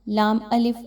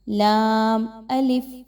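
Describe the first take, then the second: First: The laam is said short and clipped. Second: The laam is said long and drawn out. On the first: The speaker calls it wrong. "छोटा सा नहीं पढ़ना, ... ऐसा करना ठीक नहीं है" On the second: The speaker calls it right. "बल्कि"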